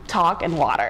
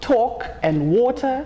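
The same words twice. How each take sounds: First: It is said in an American accent. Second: It is said in a Zimbabwean accent. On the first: The speaker blends in with everybody else. "I need to switch up my American accent" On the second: The speaker stands out as foreign. "I need to go from saying"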